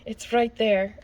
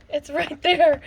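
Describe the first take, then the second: First: Said in the usual way. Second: Higher, louder, thrilled repeat; calling it out in delight; excited. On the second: Real, not acted. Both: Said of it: "So excited".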